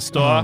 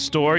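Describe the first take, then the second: First: The R is dropped, giving a long aw vowel. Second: The R at the end is pronounced. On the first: "you go to the store. Yeah, like that" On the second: "Instead of going to the store"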